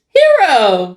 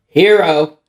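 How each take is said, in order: First: The name is said in a happy, cheerful tone. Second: The name is said in a flat, unhappy tone. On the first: The speaker calls it right. "Say his name in a happy tone of voice" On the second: The speaker calls it wrong. "It's not"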